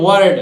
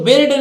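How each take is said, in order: First: The vowel sounds like the er in her. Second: The vowel sounds like the i in bit. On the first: The speaker calls it right. "क्या पढ़ेंगे? वर्ड" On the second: The speaker calls it wrong. "इसको बिल्ड नहीं पढ़ेंगे"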